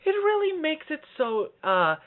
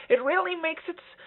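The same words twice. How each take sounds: First: High, slow, loosened head voice; retry it high without tightening; relaxed head voice. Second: High voice with a tightened throat; squeezed high talking; tight throat. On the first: Coach redoing the high demo with an open throat, slow high voice. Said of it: "I just tightened my throat". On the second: Coach catching a tight-throated high take, pinched high voice. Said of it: "I just, I just tightened my throat". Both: Shown as a demonstration.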